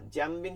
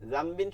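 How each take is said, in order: First: জামবিন said "jambin"; wrong j sound. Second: জামবিন said "zambin"; correct z sound. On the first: Retold or imitated. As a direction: begin জামবিন with a hard j. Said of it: "জামবিন হবে না". (ভুল জ উচ্চারণ) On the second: Shown as a demonstration. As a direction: begin জামবিন with a buzzing z. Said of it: "জাল থেকে". (শুদ্ধ জাল উচ্চারণ)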